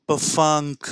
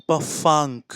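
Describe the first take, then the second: Both takes have the same delivery.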